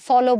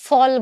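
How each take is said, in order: First: The word ends with a final o vowel. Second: The word ends in a bare consonant sound. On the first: The speaker calls it wrong. "ফলও বলছি না" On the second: The speaker calls it right. "আমরা কিন্তু ফল বলছি"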